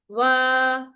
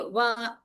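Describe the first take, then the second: First: The vowel is lengthened and fades out smoothly. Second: The vowel is cut off with a glottal catch. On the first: The speaker calls it right. "wa with the mad from the jawf" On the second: The speaker calls it wrong. "don't say wa, wa, la. In the ending, you don't give hamza sound"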